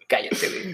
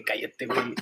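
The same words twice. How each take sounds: First: Hushed whisper, no voice. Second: Said in the usual way. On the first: Real, not acted. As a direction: whisper it to shut him up. Repeated hush, now whispered.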